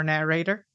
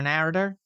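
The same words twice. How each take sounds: First: "narrator," with a full "ay" in the middle: NARR-ay-ter; normal pronunciation. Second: "narrator," stressed up front, middle reduced to "uh": NAIR-uh-ter; mispronounced narrator. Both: Real, not acted. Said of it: "if you're a normal human pronouncing the word".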